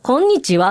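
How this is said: It is said with Kansai dialect intonation. "関西弁やん、これ。"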